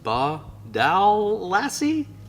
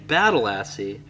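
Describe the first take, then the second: First: It is said slowly, syllable by syllable. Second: It is run together, sounding like battle lassie. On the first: "Slow down and sound it out" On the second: "I've been saying ... I guess that's not right"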